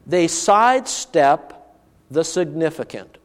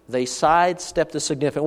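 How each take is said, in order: First: Each word set apart, slow; deliberate slow statement of the theme; slow emphasis. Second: Said in the usual way. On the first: Shown as a demonstration. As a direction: lay it out slowly, weighty.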